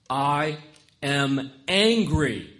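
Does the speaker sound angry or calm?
angry. It is said forcefully, with audible anger. The speaker calls it right. "Angry enough to want to punch things"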